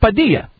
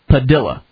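First: The double L sounds like a y. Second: The double L sounds like an l. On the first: This is the usual Spanish way of saying it. "We thought it was Padilla" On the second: This is how the family prefers it said. "Like armadilla"

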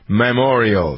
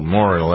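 First: Every syllable of the word is pronounced clearly. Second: The opening syllables are slurred into one. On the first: The speaker calls it right. "Say it again, [name]" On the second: The speaker calls it wrong. "I have people who slur through this"

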